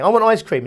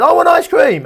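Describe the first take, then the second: First: Higher-pitched mock toddler demand. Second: Put-on very high, loud toddler wail; toddler tantrum. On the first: Toddler asks parent for ice cream, mildly demanding. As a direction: lightly play a toddler wanting a treat. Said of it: "the toddler wants ice cream". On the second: Toddler refuses to accept no, wailing demand. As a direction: escalate to a full mock tantrum. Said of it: "the toddler says".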